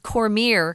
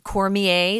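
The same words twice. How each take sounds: First: The name is said in an Americanized way. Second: The name is said in a French-style way. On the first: This is how the author himself says his name. "He says Cormier" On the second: This is how the speaker would have guessed it. "I would have said Cormier. It's kind of a French name"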